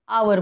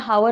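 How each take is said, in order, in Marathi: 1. हा शब्द स्वर आवाजाने सुरू होतो. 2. हा शब्द h आवाजाने सुरू होतो. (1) "आवर म्हणतो. इथे यच काय आहे? सायलेंट आहे" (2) "पण आपण याला हावर म्हणतो का? नाही"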